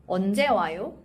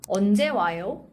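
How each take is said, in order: No difference in how they are said.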